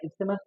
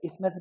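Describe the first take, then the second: First: The 'th' sound is pronounced. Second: The 'th' sound is left silent. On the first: This is the form learners should use. "आप लोग जो है isthmus पढ़ो उसको" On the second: This is how English speakers say it. "बहुत जगह पे जो है टीएच को साइलेंट पढ़ते"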